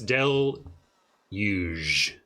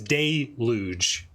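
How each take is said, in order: First: The first syllable sounds like 'dell'. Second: The first syllable sounds like 'day'. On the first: "Like Del is huge, but you take out the H" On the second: "Give me an audio dictionary that pronounces it day"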